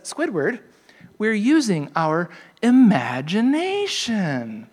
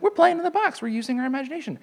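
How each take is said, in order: First: Slow, drawn-out wonder-filled cartoon voice; dreamy SpongeBob. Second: Much higher, squeaky cartoon voice; cheery SpongeBob. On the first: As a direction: stretch it out like a magical reveal. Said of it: "he says". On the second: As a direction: play a gleeful childlike sponge. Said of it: "He's like".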